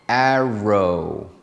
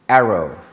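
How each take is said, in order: First: The word is said slowly. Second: The word is said at normal speed. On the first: "We did those slowly for practice" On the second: "but at normal speed"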